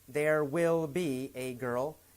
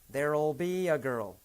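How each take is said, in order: First: The word will is said in full. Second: The word will is reduced to 'll.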